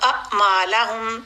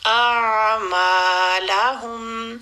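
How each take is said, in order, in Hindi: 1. ऐन की आवाज़ फ़ौरन काट दी जाती है। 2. ऐन की आवाज़ एक पल के लिए खींची जाती है। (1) "आइन को डेढ़ हरकत पूरी नहीं हुई" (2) "हर साकिन लेटर को सुकून देना है"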